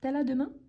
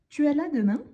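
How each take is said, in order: First: The words 'tu es' are shortened to t'es. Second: The words 'tu es' are said in full. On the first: It is casual spoken French, said faster. The speaker calls it wrong. "quand on s'exprime à l'oral, c'est normal" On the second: It is the correct written form. The speaker calls it right. "le correct, c'est « Tu es là demain »"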